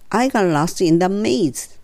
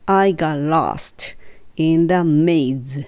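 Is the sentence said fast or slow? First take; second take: fast; slow. First: The sentence is spoken at a faster pace. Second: The sentence is spoken at a slow pace. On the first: "3 回目はちょっと早く" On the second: "2 回ゆっくり言って"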